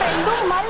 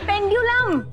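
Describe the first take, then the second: First: The word is said as pendumal. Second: The word is said as pendyulam. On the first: The speaker calls it wrong. "પેન્ડુમલ નહીં" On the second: The speaker calls it right. "નહીં પેન્ડ્યુલમ"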